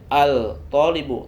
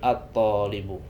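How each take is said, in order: First: The l of the article is clearly pronounced. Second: The l merges into a doubled t sound. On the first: The speaker calls it wrong. "bukan dibaca al-talibu" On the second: The speaker calls it right. "tetapi at-talibu"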